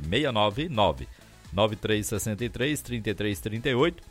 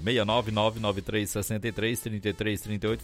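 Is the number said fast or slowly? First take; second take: slowly; fast. First: The number is said more slowly. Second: The number is said fast.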